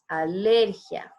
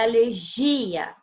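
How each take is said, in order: First: The stress falls where Spanish puts it. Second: The stress falls where Portuguese puts it. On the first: The speaker calls it right. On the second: The speaker calls it wrong. "Não é alergia"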